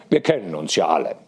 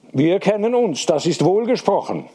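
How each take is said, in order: First: Said in the usual way. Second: Higher, solemn pronouncement; solemn approval, pitched up. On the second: A narrator's reading. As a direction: declare it with raised, ceremonious pitch. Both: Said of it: "sagte Hediger feierlich".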